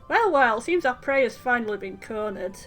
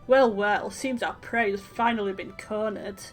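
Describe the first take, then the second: First: It is said in a plain, ordinary voice. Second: It is said in a low, sultry voice. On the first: The speaker calls it wrong. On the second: The speaker calls it right.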